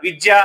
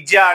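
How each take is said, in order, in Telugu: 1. ఈ పదం స్పష్టమైన 'vi' శబ్దంతో మొదలవుతుంది. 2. ఈ పదం కేవలం 'i' శబ్దంతో మొదలవుతుంది. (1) "విద్య అన్నప్పుడు" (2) "ఇజ్య అంటుంటారు"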